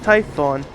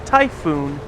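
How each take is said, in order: First: The name ends with a short 'on' sound. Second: The name ends with a long 'oon' sound. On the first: The speaker calls it right. "it is pronounced Typhon" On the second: The speaker calls it wrong. "I was just mispronouncing it as Typhoon"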